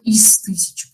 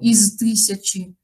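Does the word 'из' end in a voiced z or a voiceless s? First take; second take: voiceless s; voiced z. First: The preposition ends in a voiceless s sound. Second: The preposition ends in a voiced z sound. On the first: The speaker calls it right. "У нас оглушение происходит" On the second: The speaker calls it wrong. "Мы не говорим и не поем"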